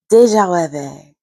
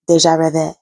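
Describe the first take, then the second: First: Best French accent. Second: Said in the usual way. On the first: Shown as a demonstration. Vlogger trying to pronounce the term for viewers, French accent. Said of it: "That's my best French accent".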